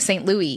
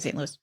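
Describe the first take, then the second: First: The S at the end of Louis is silent. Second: The S at the end of Louis is pronounced. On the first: The speaker calls it wrong. "They kept saying Saint Louis" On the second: The speaker calls it right. "There's an S at the end"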